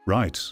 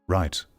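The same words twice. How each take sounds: The two takes are said the same way.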